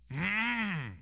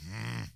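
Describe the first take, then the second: First: A higher, questioning hum, like a peasant who just caught on; suspicious hum. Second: A low, soft, sullen hum of growing anger; low grumble. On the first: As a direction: let the hum lift with dawning suspicion. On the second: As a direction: grumble it under your breath like a brooding German peasant. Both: Retold or imitated. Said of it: "And they get mad".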